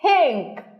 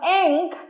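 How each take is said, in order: First: An h sound is added before the first vowel. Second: It starts directly with the vowel, no h sound. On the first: "you hear ink" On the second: "Instead of ink"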